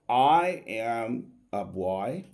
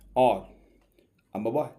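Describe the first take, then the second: First: 'I am' is said as two full words. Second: 'I am' is said quickly as one syllable. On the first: The speaker calls it wrong. "which method is correct" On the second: The speaker calls it right. "this is going to be the right method of pronouncing the pronoun I"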